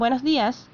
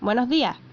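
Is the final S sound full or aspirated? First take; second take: full; aspirated. First: The S sounds are pronounced fully. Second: The S sounds are aspirated, Chilean style.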